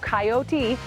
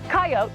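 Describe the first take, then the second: First: The word is said with three syllables. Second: The word is said with two syllables. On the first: "with three syllables" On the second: "with two syllables"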